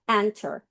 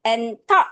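First: "enter"의 "en"에 강세, 영어식으로; "enter"의 앞을 세게, "ter"는 약하게; 첫음절 강세. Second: "enter"를 "엔터"처럼 한국어식으로; "enter"를 두 음절 또박또박, 강세 구분 없이; 강세 없는 한국식 발음. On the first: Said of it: "이렇게 정확하게 외워줘야". ("enter"를 앞 강세 영어 발음으로) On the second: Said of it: "이렇게만 정확한 발음으로". ("enter"를 한국식 "엔터"로) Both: Shown as a demonstration.

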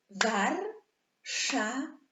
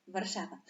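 First: "Warszawa" split loudly into three drawn-out syllables, "War", "sza", "wa"; podział na sylaby. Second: Said in the usual way. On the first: Shown as a demonstration. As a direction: slowly beat out "Warszawa" in three pieces, louder and higher. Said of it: "sylaby słowo". (głośno i powoli sylabami: „War”, „sza”, „wa”) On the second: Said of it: "To podzielmy na".

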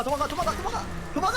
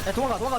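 First: Panicked rising yells; frantic higher shouting. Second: Loud, high call to run; urgent shout. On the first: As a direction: get more frantic each time. Keeps yelling, higher. (더 다급하게 높이 외치며) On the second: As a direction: yell at him to get out. Yelling to flee. (다급하게 소리치며) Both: Real, not acted.

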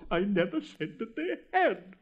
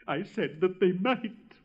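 First: Higher, protesting emphasis on "had"; stress on "had". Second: Slow, pointed emphasis on "might"; stress on "might". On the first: Rocket corrects the Roman candle, stressing "had". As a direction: land hard on "had" as the word in dispute. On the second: Rocket clarifies to the Roman candle, stressing "might". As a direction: draw out and underline "might" as the correction. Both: Acted.

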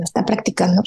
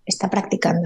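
First: Said in the usual way. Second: A soft murmured "Está practicando" to herself; hushed inner mantra; quiet self-reminder. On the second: Shown as a demonstration. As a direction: say "Está practicando" under your breath. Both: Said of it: "me ayuda mucho pensar".

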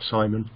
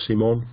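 First: Said in the usual way. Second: "Simon" said the French way, see-MON; "Simon" with an ee in the first syllable; French pronunciation. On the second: Shown as a demonstration. Tries French version of the name.

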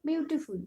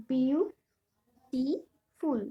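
First: Said in the usual way. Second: beautiful very slowly in three beats, বিউ, টি, ফুল; syllable by syllable. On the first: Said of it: "কয়টি করে syllable আছে". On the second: Shown as a demonstration. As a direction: split beautiful into বিউ - টি - ফুল with long pauses. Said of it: "এখানে তিনটে syllable আছে". (Beautiful ধীরে তিন ভাগে ভেঙে: বিউ, টি, ফুল)

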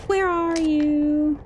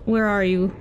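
First: Slow, drawn-out teasing call; slow singsong where are you; sing-song call. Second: Said in the usual way. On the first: Pretend. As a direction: coax them out like hide-and-seek.

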